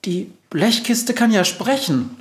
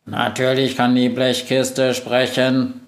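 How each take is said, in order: First: High, squeaky mouse alarm; frightened little mouse voice; startled squeal. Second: Slow, monotone machine voice; mildly indignant, evenly paced robot. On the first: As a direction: squeak it in shock. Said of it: "quietscht die Maus erschrocken". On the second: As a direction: retort like an offended computer. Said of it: "empört sich Globus". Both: A narrator's reading.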